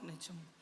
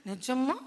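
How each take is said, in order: First: Low, much softer answer; soft reply. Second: Light rising really; eager question. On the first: Samson reassures Delilah, softly and low. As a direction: confirm it gently, almost under the breath. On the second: Delilah checks Samson's secret, eagerly. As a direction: ask with hopeful surprise. Delilah asks if it's true. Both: Acted.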